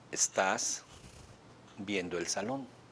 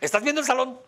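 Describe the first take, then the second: First: The phrase is said slowly, at a calm pace. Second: The phrase is said quickly, at a rushed pace. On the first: It mirrors how the other person spoke. The speaker calls it right. "eso le digo" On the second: It does not match how the other person spoke. The speaker calls it wrong. "No lo hizo con esa velocidad"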